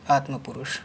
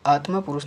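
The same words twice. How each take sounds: First: आत्मपुरुष with short vowel after m; corrected form. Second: आत्मा पुरुष with long aa after m; wrong form. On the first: Teacher corrects students, आत्मपुरुष as one word. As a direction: run aatma short into purush in आत्मपुरुष. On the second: Teacher shows the error, आत्मा with long ending. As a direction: lengthen the end of आत्मा. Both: Shown as a demonstration. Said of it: "नहीं".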